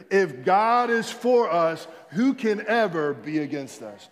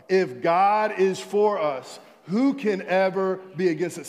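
First: With conviction. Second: Louder read-along. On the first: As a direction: say it like you mean it. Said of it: "Say it like you mean it". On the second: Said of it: "read it one more time". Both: Shown as a demonstration.

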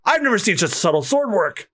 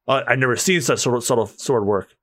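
First: Higher take, near the usual voice; lighter reading. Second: Low, composed character voice; deep swordsman. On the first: Onlooker admiring the sword work, lighter voiced. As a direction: read it in a lighter voice. Line first read, then redone. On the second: Onlooker admiring the sword work, deep and composed. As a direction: redo it in a deep voice. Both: Acted.

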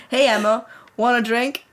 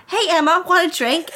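First: [name] voice. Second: Put-on high-pitched mean-girl voice; Haley. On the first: Acted. Reader mistakenly voicing the bully as the crush, casual boyish voice. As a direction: say it evenly, as the boy would. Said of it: "This is not Harry". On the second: School bully offering a drink, high girlish voice. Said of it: "This is, this is Haley".

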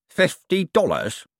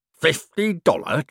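First: Slow, drawn-out appalled repeat. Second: Slow, put-on growl of outrage. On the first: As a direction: sound appalled at the pittance. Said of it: "appalled at the minimum wage of sin". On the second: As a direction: growl the sum in disbelief. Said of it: "growled Cribbins". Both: A narrator's reading.

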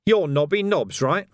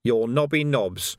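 First: Louder, pointed accusation; accusing copper. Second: Slow, measured identification; slow and deliberate. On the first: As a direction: nail him with the name. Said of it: "pointed an accusing finger". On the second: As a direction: lay it out slowly like a charge sheet. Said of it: "Some people might say so". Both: Acted.

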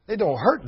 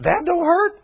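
First: Said in the usual way. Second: High, loud disbelieving echo; incredulous. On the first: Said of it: "preacher repeats her words". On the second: Shown as a demonstration. Preacher echoing the burned woman, high and incredulous. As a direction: throw it up high in mock disbelief. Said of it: "preacher mocks disbelief".

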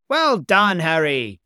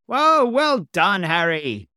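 First: Loud, high praise; exclaimed at full voice; cried out. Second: Long, high, slow whoa then loud praise; thrilled shout of praise; delighted cry. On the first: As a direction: shout it up to the boy in the air. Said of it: "Gomez cried". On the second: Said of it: "cried Gomez". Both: A narrator's reading.

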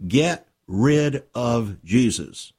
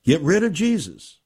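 First: Drawn out slowly, each word weighed; slow emphatic statement. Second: Punched out, a little higher and stronger; emphatic repeat. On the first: Preacher naming the age's agenda, slow and deliberate. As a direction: lay it down slowly and firmly. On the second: Preacher repeating the world's agenda, punched harder. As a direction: hammer the phrase home. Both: Real, not acted.

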